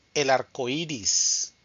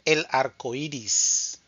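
Both takes have the same delivery.

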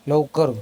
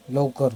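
First: लवकर said noticeably louder and sharper; firmer repeat. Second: Said in the usual way. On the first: Real, not acted. Parent to baby Raghav, louder impatient repeat. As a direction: push the word लवकर harder the second time.

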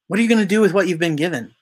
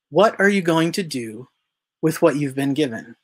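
First: Fast repeat. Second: Said in the usual way. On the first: Shown as a demonstration. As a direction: rattle it off quickly, pressing the point. Repeats the question rapidly.

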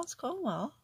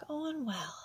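First: Said in the usual way. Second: Whispered to herself, a touch higher. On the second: Real, not acted. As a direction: breathe it out under your breath. Repeating to herself while working.

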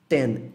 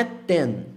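First: "ten" lower, with a light TS onset; ten com T-S leve. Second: "ten" with a pure dry T; ten seco. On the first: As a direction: release the T of "ten" into a faint S. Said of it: "como se fosse um T S". ("ten" quase "tsen") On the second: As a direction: say "ten" with no aspiration on T. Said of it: "Não é ten". ("ten" com T puro, seco) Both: Shown as a demonstration.

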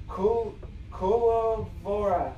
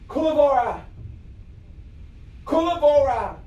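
First: Slow, halting first try at "Kulavora"; sounding it out. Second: Firm, projected "Kulavora", like an incantation; casting a spell. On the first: Real, not acted. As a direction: sound out "Kulavora" bit by bit, softly. Sounding out a new spell word. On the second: Pretend. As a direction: call out "Kulavora" in one go.

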